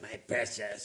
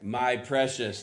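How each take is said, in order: First: It is said in a groveling voice. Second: It is said in a plain voice.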